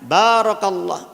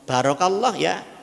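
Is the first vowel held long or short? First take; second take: long; short. First: The first vowel is held long. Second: The first vowel is cut short. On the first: May God bless you. The speaker calls it right. "seharusnya panjang" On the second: It refers to a camel kneeling down. The speaker calls it wrong. "bae dindekno"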